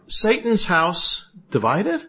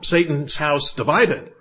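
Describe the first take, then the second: First: It is said as a questioning rise. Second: It is said as a forceful exclamation.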